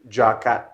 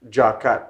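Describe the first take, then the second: The two takes are said the same way.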